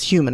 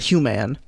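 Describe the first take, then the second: First: The last syllable has a weak 'min' vowel. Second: The last syllable has a full 'man' vowel. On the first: The speaker calls it right. "the phonetic spelling would be like an I or an E there" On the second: The speaker calls it wrong. "it's not human"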